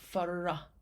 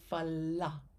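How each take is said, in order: First: The syllable is said with an R sound. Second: The syllable is said with an L sound. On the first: The speaker calls it wrong. "So not refracted, not fara" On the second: The speaker calls it right. "but fala; I want an L sound"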